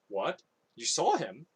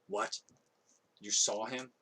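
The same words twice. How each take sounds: First: It is said in Joab's usual character voice. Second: It is said in a different voice than Joab's.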